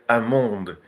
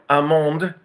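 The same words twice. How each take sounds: First: Amande said the French way, nasal a, no L. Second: Amande drawn out slowly and higher; slow, higher amande in French. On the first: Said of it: "they say amande". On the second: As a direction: amande prononcé lentement. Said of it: "Now, amande". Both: Shown as a demonstration.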